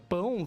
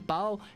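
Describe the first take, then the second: First: It ends in the nasal diphthong 'ão'. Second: It ends in an oral 'au' sound.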